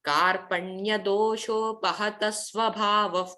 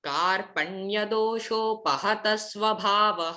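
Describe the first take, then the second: First: The final visarga sounds like a soft f. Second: The final visarga sounds like a plain h.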